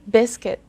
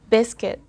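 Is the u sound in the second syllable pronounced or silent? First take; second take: silent; silent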